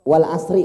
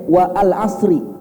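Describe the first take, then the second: First: The words run together with no glottal stop. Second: A glottal stop separates 'wa' from 'al'. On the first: The letter is an alif, which is written but not read. The speaker calls it right. "Ini alif atau hamzah Pak? Alif" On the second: The letter would be a hamzah, which is read. The speaker calls it wrong. "Kalau sekiranya hamzah seharusnya bacanya wa al asri"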